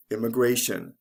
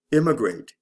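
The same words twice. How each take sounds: First: "immigration" stressed immi-GRA-tion; stress before the ending. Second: "Immigrate" stressed IM-mi-grate; stress on first syllable. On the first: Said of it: "the stress comes right before the ending". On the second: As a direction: punch IM in "Immigrate". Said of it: "is actually the first syllable of these words". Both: Shown as a demonstration.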